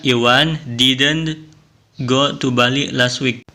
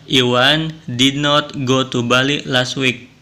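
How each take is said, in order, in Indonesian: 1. Did dan not menyatu menjadi satu kata, didn't. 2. Did dan not diucapkan sebagai dua kata.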